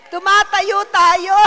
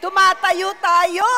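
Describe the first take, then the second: First: Even louder and higher, drawn out; louder shouted call. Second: Loud, high, slowed rallying call; shouted call. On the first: Preacher repeating the call to stand, louder still. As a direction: push harder the second time. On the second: Preacher calling the church to stand, shouting. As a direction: pull everyone up onto their feet. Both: Real, not acted.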